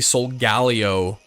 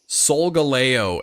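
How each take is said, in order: First: The ending is said like the name Leo. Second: The ending is not said like the name Leo. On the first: The speaker calls it wrong. "some people say Solgaleo, which is not correct" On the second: The speaker calls it right. "I believe it's Solgaleo"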